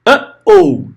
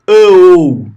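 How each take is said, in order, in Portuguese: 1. Uma oclusão glotal separa as duas vogais. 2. As duas vogais se juntam, sem pausa. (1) "Uh-oh é por causa da pausa glotal. Você quebrou" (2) "Você não fala uh-oh, não é tudo junto"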